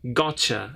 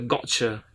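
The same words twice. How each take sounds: First: The t flows smoothly without a break. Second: The t is a sudden break in the voice. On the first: "And Americans say gotcha" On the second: "In Britain, they say gotcha. kind of stop... sudden pause or sudden break in the voice"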